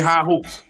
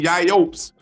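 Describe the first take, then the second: First: The first word begins with an h sound. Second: The first word begins with a y sound. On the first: The speaker calls it right. "You gotta say high hopes" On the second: The speaker calls it wrong. "You can't say yay hopes"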